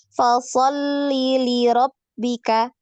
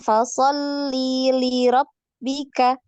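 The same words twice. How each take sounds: First: The vowel in 'li' is kept short. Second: The vowel in 'li' is drawn out long. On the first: The speaker calls it right. "li-nya ini pendek ya, jangan dipanjangkan" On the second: The speaker calls it wrong. "jadi kepanjangan li-nya"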